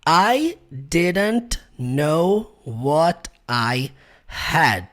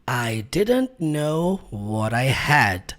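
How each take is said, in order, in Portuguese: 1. As palavras what e I ficam separadas. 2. As palavras what e I se juntam.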